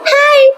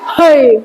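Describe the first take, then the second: First: It is said in a normal voice. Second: It is said in a deeper voice.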